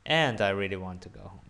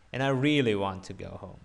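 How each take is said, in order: First: "And" punched at the start, the rest falling; stress on AND. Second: "really" lifted, the rest falling; stress on REALLY. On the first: Teacher shows the other way, stressed "And". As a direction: hit the opening word "And". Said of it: "put it into the beginning". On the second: Teacher shows one of two ways, stressed "really". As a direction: lean on "really" in the sentence. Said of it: "You can also say it both ways". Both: Shown as a demonstration.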